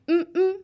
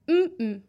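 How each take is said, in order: First: Both hums stay on a high pitch. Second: The first hum is high, the second low. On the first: "deux tons hauts" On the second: "un ton haut et un ton bas"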